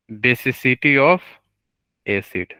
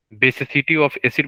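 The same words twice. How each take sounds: First: Drawn-out term, rising on "of", pause, then "acid" drops; slow prompting. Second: Said in the usual way. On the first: Real, not acted. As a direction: say it slowly, leaving a gap for students. Teacher slowly prompts the term back.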